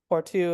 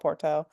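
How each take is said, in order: First: It is said with a Portuguese pronunciation. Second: It is said with an American pronunciation. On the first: This is how locals say it. "is the way they pronounce it" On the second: This is how Americans say it. "Americans would call it"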